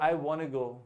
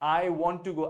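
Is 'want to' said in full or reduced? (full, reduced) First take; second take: reduced; full. First: 'Want to' is reduced to one word, 'wanna'. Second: 'Want to' is said as two full words. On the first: "वो वाना बोलते हैं" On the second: "आप ये नहीं बोलते"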